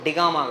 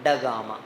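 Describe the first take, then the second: First: The surname begins with the syllable 'di'. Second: The surname begins with the syllable 'da'. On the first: The speaker calls it wrong. "Vasco డిగామా కాదు" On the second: The speaker calls it right.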